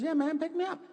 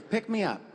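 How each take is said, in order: First: Put-on much higher squeaky child's voice, insistent; little kid voice. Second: Put-on higher kid voice, a simple request; little son's voice. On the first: Six-year-old begging his dad to pick him up, high child voice. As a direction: go way up like a small boy begging. Son insists on being held. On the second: Son asking dad to pick him up, higher kid voice. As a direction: lightly play the six-year-old asking.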